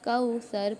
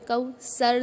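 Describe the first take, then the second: First: The middle consonant is a soft 'th' sound. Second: The middle consonant is a hissing 's' sound. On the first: The speaker calls it right. "इसको यहाँ पर कौसर पढ़ रहे हैं" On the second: The speaker calls it wrong. "कौसर नहीं पढ़ रहे हम"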